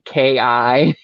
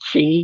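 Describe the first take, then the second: First: The word begins with a k sound. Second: The word begins with a ch sound. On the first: The speaker calls it wrong. "He's been pronouncing it K I" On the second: The speaker calls it right. "Didn't know it was pronounced Chi"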